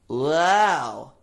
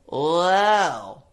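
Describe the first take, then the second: First: It is said in a bright, whiny voice. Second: It is said in a bright, whiny voice.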